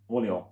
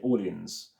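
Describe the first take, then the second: First: It is not pronounced like the city New Orleans. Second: It is pronounced like the city New Orleans. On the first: The speaker calls it right. "it's called Orléans. Orléans, that's all it is" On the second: The speaker calls it wrong. "which I used to say Orleans. A bit like New Orleans"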